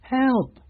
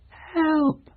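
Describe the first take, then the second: First: Much higher frightened plea; desperate high call; weak cry. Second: Even higher, fading plea; desperate thin cry; weak cry. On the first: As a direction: cry out faintly for rescue. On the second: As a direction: call again from far off. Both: Acted. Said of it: "a weak cry".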